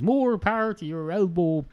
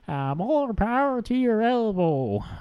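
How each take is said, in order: First: It is said in the speaker's own Irish accent. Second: It is said in an attempted American accent.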